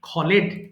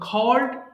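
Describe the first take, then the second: First: The ending is said as an extra syllable. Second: The ending joins the word as one syllable. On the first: The speaker calls it wrong. "একটা common mistake আছে, এটাকে মাঝে মধ্যে অনেকেই আমি বলতে শুনেছি খলেড" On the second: The speaker calls it right. "তাহলে এটা হবে খল্ড হবে"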